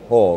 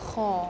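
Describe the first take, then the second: First: It starts with a soft, plain h sound. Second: It starts with a rough, raspy throat sound. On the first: The speaker calls it wrong. "jangan dibaca ho" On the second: The speaker calls it right. "getaran terasa pada tenggorokan kita"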